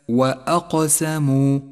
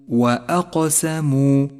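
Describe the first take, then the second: No difference in how they are said.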